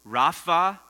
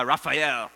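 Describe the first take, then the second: First: "Raphael" slowly, split into Rapha, pause, El. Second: Said in the usual way. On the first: Shown as a demonstration. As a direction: break "Raphael" apart so the listeners hear both parts. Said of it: "Let me say that name slowly". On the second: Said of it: "let me say that name slowly".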